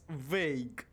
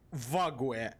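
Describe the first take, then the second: First: The word has its standard English pronunciation. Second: The word is read letter by letter, Slavic-style. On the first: The speaker calls it right. "But it's vague" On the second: The speaker calls it wrong. "if I would read Slavically, ... I would say like Vague. Literally"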